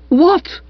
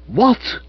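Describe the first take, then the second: First: Very high, loud excited yip; Stiffy hearing the charge is dropped, yipping; yipped. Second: High, startled question; surprised cry. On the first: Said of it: "yipped Stiffy". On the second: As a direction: Bertie hearing he is free, a surprised cry. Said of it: "I cried". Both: Acted.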